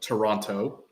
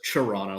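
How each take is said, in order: First: Every syllable is pronounced, including the final t. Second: The word is blended into about one syllable. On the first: This is how people who never spend time there say it. "they pronounce that last part" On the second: This is the real local way of saying it. "all just ble- blends into one syllable"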